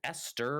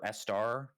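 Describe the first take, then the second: First: "Esther" said ESS-ter, with a hard t; "Esther" with unstressed -ter ending; first pronunciation option. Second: "Estar" said ESS-tar, open ending; "Estar" with a full -ar vowel; second pronunciation option. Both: Shown as a demonstration. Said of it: "is it Esther or Estar?".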